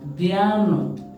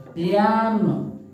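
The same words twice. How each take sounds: No difference in how they are said.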